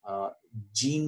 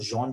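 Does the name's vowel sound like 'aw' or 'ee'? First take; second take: ee; aw. First: The name is said with an 'ee' vowel. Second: The name is said with an 'aw' vowel. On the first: The speaker calls it wrong. "जीन नहीं पढ़ते इसको" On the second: The speaker calls it right. "जॉन पढ़ते हैं जहां तक मुझे पता है"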